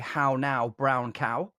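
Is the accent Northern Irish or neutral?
neutral. It is said in a neutral accent.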